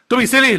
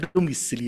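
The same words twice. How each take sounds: First: It is said in a curt, harsh tone. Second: It is said in a soft, affectionate tone. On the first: It sounded dismissive to the listener. The speaker calls it wrong. "But I think it came out" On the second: The speaker meant it kindly. The speaker calls it right. "in my mind, it probably went"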